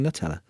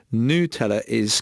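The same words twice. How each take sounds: First: Nutella said as nut-ELLA; English pronunciation. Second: Nutella said as noo-TELL-a; long oo opening on Nutella; Italian pronunciation. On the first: Naming the word being corrected, English nut-ELLA for Nutella. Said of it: "way of saying Nutella". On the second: Reading out the listener's correction, noo-TELL-a for Nutella. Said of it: "correct Italian way of saying". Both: Retold or imitated.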